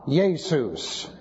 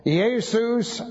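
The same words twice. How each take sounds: First: "Jesus" said the German way, as YAY-sus; German pronunciation. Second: "Jesus" as ee-AY-sous, no J, pitched higher; Greek pronunciation. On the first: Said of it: "just simply from the Deutsch, Ja". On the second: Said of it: "No J there". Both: Shown as a demonstration.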